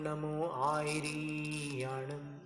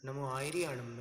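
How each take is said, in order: First: The vowel in 'ri' is drawn out long. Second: The vowel in 'ri' is kept short. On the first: The speaker calls it wrong. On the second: The speaker calls it right.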